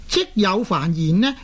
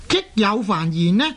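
Both takes have the same delivery.

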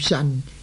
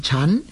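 First: It starts with an s sound, ending in n. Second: It starts with a ch sound, ending in m. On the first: The speaker calls it wrong. "有人读做神" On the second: The speaker calls it right. "正確嘅读音呢系应该呢读做沉"

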